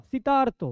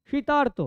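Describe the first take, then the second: No difference in how they are said.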